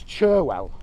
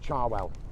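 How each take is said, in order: First: The first syllable sounds like 'cher'. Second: The first syllable sounds like 'char'. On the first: This is the name's proper form. "its proper name is Cherwell" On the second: This is how people further north say it. "as you come north in the country, the people pronounce it more like Charwell"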